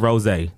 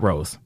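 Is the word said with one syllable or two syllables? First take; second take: two; one. First: The word is said with two syllables. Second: The word is said with one syllable. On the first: The speaker calls it right. "We serve rosé" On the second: The speaker calls it wrong. "not rose"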